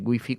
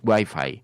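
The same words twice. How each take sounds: First: It is pronounced with a Spanish-style reading. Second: It is pronounced with an English-style reading. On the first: This is how people in this country say it. The speaker calls it wrong. "este país se llame Wi-Fi" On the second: This is how the word really is. The speaker calls it right. "cuando es Wi-Fi"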